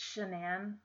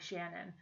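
First: The name sounds unlike the common name Shannon. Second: The name sounds like the common name Shannon. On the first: The speaker calls it right. "It's Shanann, and I mispronounced that" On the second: The speaker calls it wrong. "I pronounced one of the victims' names as Shannon"

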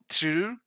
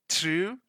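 The two takes are said the same way.

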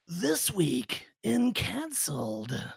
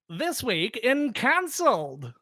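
First: It uses a deep, gravelly movie-trailer voice. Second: It uses a bright, old-fashioned announcer voice. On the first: "How about in movie guy voice?" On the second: "Shall I do it in 50s style for us?"

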